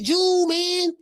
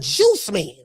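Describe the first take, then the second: First: The word 'Juice' loses its final s sound. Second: The word 'Juice' keeps its final s sound. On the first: It imitates how someone else said it. The speaker calls it wrong. "cause that's how he said" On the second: It is the intended phrase. The speaker calls it right. "he's saying [name] the Juice Man"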